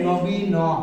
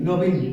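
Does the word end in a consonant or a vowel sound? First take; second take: vowel; consonant. First: The final n is followed by a vowel. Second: The word ends on a bare n sound. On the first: The speaker calls it wrong. "বলছেন না যে নবী ন" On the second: The speaker calls it right. "বলছেন কি নবীন"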